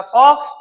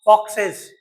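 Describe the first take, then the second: First: "fox" loud and rising, one syllable; singular demo. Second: "foxes" with a clear ez syllable, falling; plural demo. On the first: Teacher setting singular against plural, loud "fox". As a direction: call out "fox" loud with a lift. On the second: Teacher setting plural against singular, "foxes" falling. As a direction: land "foxes" with the extra syllable. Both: Shown as a demonstration. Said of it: "समझ में आया?".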